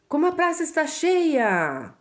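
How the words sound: It is said as a surprised exclamation.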